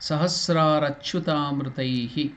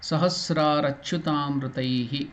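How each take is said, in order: The two takes are said the same way.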